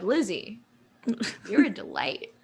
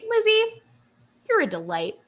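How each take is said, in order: First: It is said in a leering, unsettling tone. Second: It is said in a warm, sincere tone. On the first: The compliment has an inappropriate undertone. The speaker calls it wrong. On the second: The compliment is meant kindly. The speaker calls it right.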